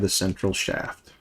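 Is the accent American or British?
American. It is said in an American accent.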